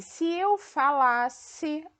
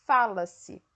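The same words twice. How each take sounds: First: Falasse with stress on la, drawn out; fa-LAS-se, the la syllable strong. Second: Fala-se with stress on fa; FA-la-se, first syllable strong. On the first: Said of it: "a sílaba tônica é o lá". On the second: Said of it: "a sílaba tônica tá no fá". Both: Shown as a demonstration.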